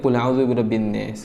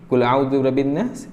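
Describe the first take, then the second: First: It is said in another Arabic dialect's pronunciation. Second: It is said in the standard reading pronunciation. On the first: This is how another tribe's dialect reads it. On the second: This is how it is normally read.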